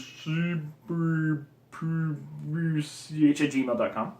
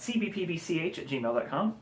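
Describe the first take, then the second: First: It is said extra slowly. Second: It is said at a normal pace.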